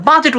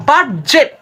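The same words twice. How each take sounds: First: বাজেট as "BA-jet"; no d sound in বাজেট; smooth open first syllable in বাজেট; correct pronunciation. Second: বাজেট said as "bad-jet"; wrong pronunciation. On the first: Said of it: "বাজেট উচ্চারণই কিন্তু হচ্ছে". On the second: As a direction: add a hard d before j in বাজেট. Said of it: "উচ্চারণটা না করে". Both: Shown as a demonstration.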